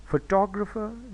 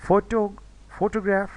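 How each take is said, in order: First: photographer said fuh-TOG-ruh-fer; photographer with weak first, strong second syllable; stress on second syllable. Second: Raised, front-stressed photo, then photograph; stress on first syllable. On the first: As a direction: put the weight on टॉग inside photographer. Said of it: "इसमें दूसरा stress है". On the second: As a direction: punch the start of photo and photograph, higher voice. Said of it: "पहला stress है". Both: Shown as a demonstration.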